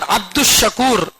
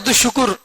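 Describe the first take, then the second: First: The second word is a long 'shakoor'. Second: The second word is a short 'shukr'. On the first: The speaker calls it right. "बल्कि शकूर" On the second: The speaker calls it wrong. "हमारे लोग उसको क्या बोलते हैं? ... वो शुक्र भाई नहीं"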